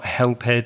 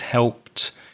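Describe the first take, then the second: First: The ending is said as an extra syllable. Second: The ending adds no extra syllable. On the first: The speaker calls it wrong. "it's not helped" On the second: The speaker calls it right. "it's helped"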